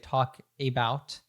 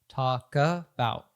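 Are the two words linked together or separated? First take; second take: separated; linked. First: The K and the following A are kept separate. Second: The K runs straight into the following A. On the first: "she doesn't say talk about" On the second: "she connects the K to the A as if it were an article"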